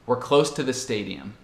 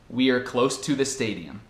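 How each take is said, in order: First: The small words are reduced and run together. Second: The small words are said fully and carefully. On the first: "E a forma normal para mim seria" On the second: "A forma certa, entre aspas"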